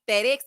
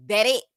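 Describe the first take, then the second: First: Said in the usual way. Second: "that X" punched louder, with attitude; emphatic slang pronunciation. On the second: Shown as a demonstration. Host teaching how her channel says it, punched "that X". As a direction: hit "that X" hard as the sassy correct version. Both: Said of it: "It's the way you say things".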